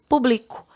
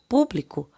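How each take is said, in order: First: The stress falls on the second syllable. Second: The stress falls on the first syllable. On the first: It is a verb meaning I publish. "sem o acento, é um verbo" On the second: It is a noun meaning the audience. "com acento, ela é um substantivo"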